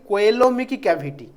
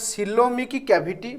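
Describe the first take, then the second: First: The first word begins with a K sound. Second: The first word begins with an S sound. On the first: "କେହି କେହି ତାକୁ ଉଚ୍ଚାରଣ କରନ୍ତି" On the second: "ତମେମାନେ କିନ୍ତୁ ସିଲୋମିକ୍ cavity କହିବ"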